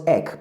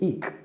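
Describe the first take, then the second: First: EK said with a short E, as in "neck"; short-vowel EK in place of "eek"; mispronounced. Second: EKE said as "eek", long EE; long-vowel EKE, rhyming with "seek"; correct pronunciation. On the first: Teacher showing the wrong way to say eke, mispronounced. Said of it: "Not ek". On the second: Teacher correcting the word eke, correct pronunciation. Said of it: "No, it's eke". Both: Shown as a demonstration.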